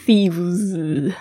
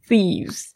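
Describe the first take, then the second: First: Thieves said slowly with a heavy exaggerated z; overdone pronunciation. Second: Thieves ending in a light z close to s; easy natural thieves. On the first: Teacher mocking an overdone thieves for students. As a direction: ham up a clunky thieves. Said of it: "不要念成很重，念得很怪". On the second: Teacher showing students the natural thieves ending. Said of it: "就是z". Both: Shown as a demonstration.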